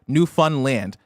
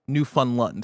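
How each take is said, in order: First: The last syllable is a full 'land'. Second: The last syllable is reduced to 'lind' or 'lund'. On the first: The speaker calls it right. "It's pronounced Newfoundland" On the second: The speaker calls it wrong. "not Newfoundland"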